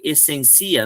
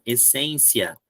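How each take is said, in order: First: "essencia" drawn out as es-sen-CI-a, stressed on the I; wrong end stress. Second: "essência" slow and lower, stressed es-SEN-cia; corrected stress. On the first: Teacher showing students the mistaken form, "essencia" slowly stressed es-sen-CI-a. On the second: Teacher correcting the mistake for students, "essência" firmly stressed on SEN. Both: Shown as a demonstration. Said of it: "não, essência".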